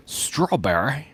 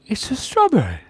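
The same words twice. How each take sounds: First: Said in the usual way. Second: Squeaky strawberry voice. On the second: Pretend. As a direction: pitch it way up like a cartoon fruit. Playful voice for the drawing.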